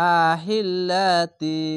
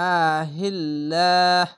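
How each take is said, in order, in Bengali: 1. শব্দটি শেষ হয় ti ধ্বনি দিয়ে। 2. শব্দটি শেষ হয় h ধ্বনি দিয়ে। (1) "মিলিয়ে পড়তেন তাহলে আহিল্লাতি কুল এভাবে তি বলতে হতো" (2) "লাহ হা হয়ে যাবে"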